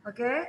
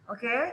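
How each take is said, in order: No difference in how they are said.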